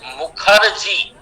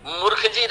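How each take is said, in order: First: "मुखर्जी" slowly as "mu-khar-ji", r after kh; correct pronunciation. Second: "मुखर्जी" misread as "murkh-ji", the r jumping ahead of kh; misspelt pronunciation. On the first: Teacher corrects a misspelt sign, slowly pronouncing "mu-khar-ji". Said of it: "अब उच्चारण में ही तो पहले मुखर्जी". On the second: Teacher reads out a misspelt Delhi bus sign, mispronounced as "murkh-ji". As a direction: say "मुखर्जी" wrongly as "MURKH-ji", r before kh. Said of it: "Delhi के बसों में देखिए मुखर्जी नगर ही लिखते हैं". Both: Shown as a demonstration.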